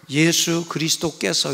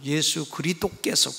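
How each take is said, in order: First: It is said in a plain, ordinary way. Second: It is said in a showy, affected way. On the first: The speaker calls it right. "이렇게 안 하고" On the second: The speaker calls it wrong. "꼭 그래"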